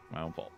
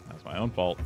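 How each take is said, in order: First: Quiet mutter to self. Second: Said in the usual way. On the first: Real, not acted. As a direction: mumble it under your breath.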